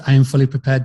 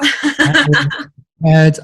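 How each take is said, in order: First: Said in the usual way. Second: Much higher and slow, a playful squeaky vow; mock singsong. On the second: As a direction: squeak it out slowly in a mock high voice. Answering "are you prepared to dance.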